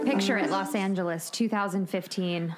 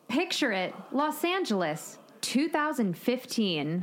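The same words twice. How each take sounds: First: It is said flatly, with low energy. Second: It is said brightly, with more energy.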